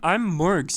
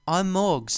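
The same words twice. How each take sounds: First: It is said in his normal American accent. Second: It is said in a put-on British accent.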